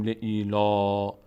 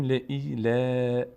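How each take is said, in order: First: "ل ای لا" ending in a heavy, rounded "law"; too full vowel. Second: "ل ای ل" stretched, ending in thin, spread "laa"; thin vowel. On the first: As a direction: round the last vowel of "ل ای لا" upward. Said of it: "یعنی اینکه نمیگیم ل ای لا". («ل ای لا» با لام پر و درشت) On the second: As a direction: draw out "ل ای ل" with a light, front final vowel. («ل ای ل» کشیده و باریک) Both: Shown as a demonstration.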